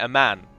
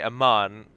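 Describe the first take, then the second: First: The A is a higher American vowel. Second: The A is an open British vowel.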